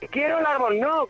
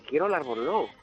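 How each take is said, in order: First: It is said loudly, almost shouted. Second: It is said louder, at a moderate volume. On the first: The speaker is frustrated and demanding. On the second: The speaker is growing insistent.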